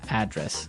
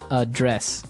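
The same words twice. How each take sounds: First: The stress is on the first syllable. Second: The stress is on the second syllable.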